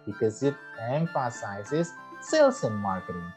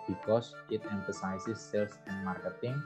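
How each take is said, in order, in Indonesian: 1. Diucapkan dengan hidup, dengan penekanan yang kuat. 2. Diucapkan dengan datar, tanpa penekanan tambahan. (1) "Tinggal mainkan ini tadi" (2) "instead of saying"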